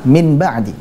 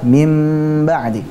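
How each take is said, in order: First: A short plain n sound comes before ba'di. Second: A long, held nasal m comes before ba'di. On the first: This is the word's original form. "Asal katanya apa?" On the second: This is the form used when reciting the Quran. "nun sukunnya diganti mim sukun, kemudian berikutnya ditambah dengan gunnah yang dipanjangkan"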